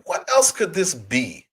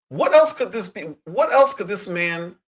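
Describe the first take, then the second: First: Said in the usual way. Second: Outraged rhetorical question; incredulous. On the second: Real, not acted. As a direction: ask it again, hardly believing it. Repeating question in disbelief.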